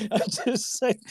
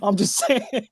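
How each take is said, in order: First: Softer, slower, chuckling through it; laughing aside. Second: Joking disclaimer. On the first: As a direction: laugh it off under your breath. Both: Real, not acted. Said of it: "Not to stereotype".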